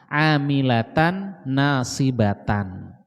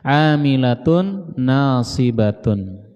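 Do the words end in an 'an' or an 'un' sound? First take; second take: an; un. First: The word endings are pronounced with an 'an' sound. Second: The word endings are pronounced with an 'un' sound. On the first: "dibacanya fathah" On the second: "dibacanya dhammah"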